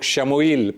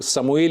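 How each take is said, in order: First: The name begins with an 'sh' sound. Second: The name begins with an 's' sound. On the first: "बाज़ लोग शमूएल pronounce करते हैं" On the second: "बाज़ लोग समूएल इसे प्रोनाउंस करते हैं"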